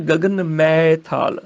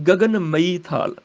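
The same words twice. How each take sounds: First: ਮੈਂ as one open 'mai' syllable; recited form. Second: ਮਈ slow, in two syllables; meaning spelt out. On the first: Teacher citing a known line, ਮੈਂ as single open 'mai'. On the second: Teacher explaining the line, ਮਈ as slow 'ma-ee'. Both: Shown as a demonstration. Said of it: "ਮੈਂ ਮੈਨੇ ਮਈ".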